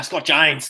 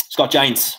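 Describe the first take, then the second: First: Australian accent. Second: Said in the usual way. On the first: Shown as a demonstration. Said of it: "Do you like how I said that, mate?". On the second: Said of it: "Do you like how I said that".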